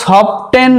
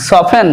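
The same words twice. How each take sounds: First: সফটেন with a sounded t; wrong pronunciation. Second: সফেন with the t silent; correct pronunciation. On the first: Teacher showing what not to say, সফটেন with sounded t. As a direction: say সফটেন slowly with a clear t after f. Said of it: "নয়". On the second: Teacher correcting soften for students, সফেন with silent t. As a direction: say সফেন, f straight into the vowel. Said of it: "সফটেন নয়". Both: Shown as a demonstration.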